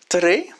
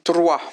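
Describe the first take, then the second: First: The word ends in an 'e' sound. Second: The word ends in a 'wa' sound.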